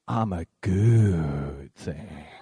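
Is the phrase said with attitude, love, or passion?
love. It is said warmly with love. "I want you to say it with love"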